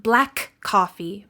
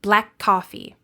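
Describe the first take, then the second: First: "black coffee" as two separate words, K released twice; slow, separated "black ... coffee"; unlinked consonants. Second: "black coffee" joined by a single held K; "black coffee" with no break, K released once; linked consonants. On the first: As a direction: break between "black" and "coffee". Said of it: "Not black coffee". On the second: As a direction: run "black" into "coffee" on one K. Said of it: "you only pronounce the consonant sound once". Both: Shown as a demonstration.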